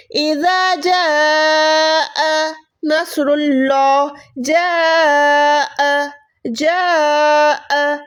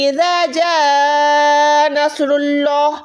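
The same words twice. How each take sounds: First: जाअ very slow with the hamza sounded clearly; proper reading. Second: जाअ glided into नसरुल्लाह, the hamza dropped; wrong reading. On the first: Teacher shows the correct reading of जाअ, drawn out. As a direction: hold जाअ and stop on the hamza. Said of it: "इस हमजा को हम proper पढ़ते हैं". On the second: Teacher shows the reading nobody should use, slow chant. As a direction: chant it slowly without the catch. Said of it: "ऐसे हम नहीं पढ़ते". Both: Shown as a demonstration.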